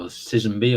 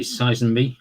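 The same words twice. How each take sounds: First: Sizenby with a short i in the first syllable; alternative pronunciation. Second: Sizenby with a long "eye" in the first syllable; first pronunciation option. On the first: Host unsure of the horse's name, offering Sizenby as SIZ-en-bee. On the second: Host naming the green horse, Sizenby as SIGH-zen-bee. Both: Shown as a demonstration. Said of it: "or however you wanna say it".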